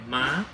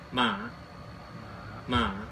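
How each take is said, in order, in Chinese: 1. 音高急剧上升。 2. 音高先降后升。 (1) "一个上升的符号，就是跟二声中文的二声很像" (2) "长得很像问号的，它就念"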